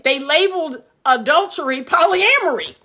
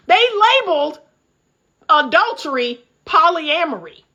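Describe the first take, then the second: First: Said in the usual way. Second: They labeled adultery polyamory with a pause before each word. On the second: Real, not acted. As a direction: spell it out word by word. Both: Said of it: "I can't make this up".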